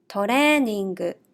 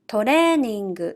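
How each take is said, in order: First: It is said with Japanese katakana pronunciation. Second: The same.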